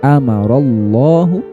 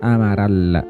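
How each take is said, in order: First: The 'lla' sound is heavy and full. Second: The 'lla' sound is light and thin. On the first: The speaker calls it right. "maka dibaca tafhim atau dibaca tebal" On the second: The speaker calls it wrong.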